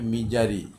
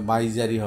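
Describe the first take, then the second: First: The first vowel sounds like 'ih'. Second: The first vowel sounds like 'eye'. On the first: The speaker calls it right. "এটার ইয়াটা হবে মিজারি" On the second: The speaker calls it wrong. "এটা মাইজারি হবে না"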